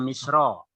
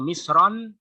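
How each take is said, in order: First: The word ends in a plain vowel, no n. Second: The word ends with an added n sound. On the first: It names the country Egypt. "Kalau dibaca Misro artinya Mesir" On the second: It means a city. "Kalau Misron ... kota"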